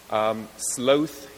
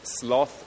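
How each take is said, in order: First: The vowel is long and drawn out. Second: The vowel is short and quick. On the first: "lingered somewhat more deliciously in the mouth" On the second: "sloth sounded a little more hurried, a little less leisurely"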